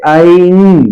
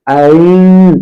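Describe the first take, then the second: Both takes have the same delivery.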